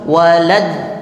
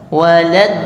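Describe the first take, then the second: No difference in how they are said.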